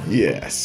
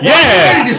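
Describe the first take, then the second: First: It is said flatly, without energy. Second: It is said loudly, with energy.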